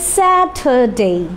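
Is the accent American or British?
British. It is said in a British accent. "যদি আপনি British অ্যাকসেন্টে বলতে চান তখন কি বলবেন"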